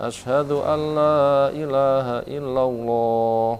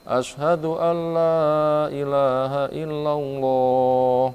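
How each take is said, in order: No difference in how they are said.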